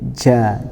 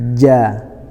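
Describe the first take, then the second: First: It begins with a ch sound. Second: It begins with a j sound. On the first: The speaker calls it wrong. "tidak boleh kita baca seperti C" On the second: The speaker calls it right. "Yang betul adalah ja"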